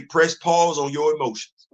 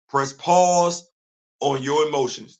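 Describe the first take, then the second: First: Said in the usual way. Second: "Press pause" set apart, then a beat before "on your emotions"; pause after PAUSE. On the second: Real, not acted. Repeats advice, broken up for emphasis.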